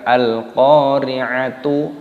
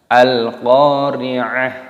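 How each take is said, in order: First: The word ends with a t plus vowel u. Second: The word ends with a soft h sound. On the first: The speaker calls it wrong. "bukan Al-Qari'atu" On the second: The speaker calls it right. "dimatikan, dibaca ha"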